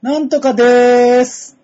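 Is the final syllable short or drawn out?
drawn out. The ending is stretched in a casual way.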